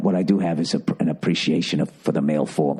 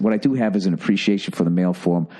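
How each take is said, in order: First: Put-on deep, halting British old man; bad British accent. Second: Said in the usual way. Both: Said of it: "I can't keep doing this accent".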